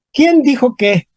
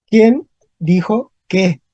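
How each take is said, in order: First: Said in the usual way. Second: Slow, separated "¿Quién ... dijo ... qué?"; dictating "¿Quién dijo qué?" slowly to a class; word by word. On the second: Shown as a demonstration. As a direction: leave a pause after "Quién" and after "dijo". Teacher repeats example word by word.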